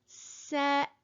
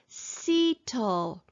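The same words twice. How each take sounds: First: The first vowel is short. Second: The first vowel is long, like its name. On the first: The speaker calls it right. "we want to write the word settle" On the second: The speaker calls it wrong. "macron is making the vowel long and say its name"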